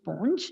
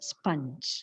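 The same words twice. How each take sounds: First: The vowel is a gliding diphthong. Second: The vowel is a single pure vowel. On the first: The speaker calls it wrong. "the commonly heard mispronunciation" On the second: The speaker calls it right. "pure vowel ആണ് അവിടുത്തെ vowel sound"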